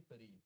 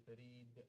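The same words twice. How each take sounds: First: "Farid" with an ordinary stopped d; unreleased final d in "Farid"; plain ending. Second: "Farid" with a bounced, echoed final d; careful recited "Farid", d popped; exact tajweed ending. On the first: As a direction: say "Farid" with no bounce on the d. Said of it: "So don't say Farid". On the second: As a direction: release the d of "Farid" with qalqala. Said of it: "has to be exactly like this". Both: Shown as a demonstration.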